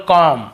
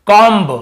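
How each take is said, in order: First: कॉम said with no b, ending on the m; कॉम ending cleanly on m; silent b. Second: कॉम्ब said with the final b clearly sounded; कॉम्ब ending on a pronounced b; wrong way, b sounded. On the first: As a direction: drop the b in कॉम. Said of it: "हमें बी को नहीं पढ़ना". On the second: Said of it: "ऐसे पढ़ते हैं ना". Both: Shown as a demonstration.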